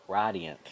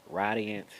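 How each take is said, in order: No difference in how they are said.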